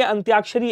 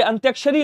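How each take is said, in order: First: अंत्याक्षरी with long aa, "antyaakshari"; correct vowel length. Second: अंत्याक्षरी with short a, "antyakshari"; wrong vowel length. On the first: Teacher correcting students, long aa in अंत्याक्षरी. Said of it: "ऐसे लिखा जाता है". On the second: Teacher showing students the error, short a in अंत्याक्षरी. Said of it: "ये गलत है". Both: Shown as a demonstration.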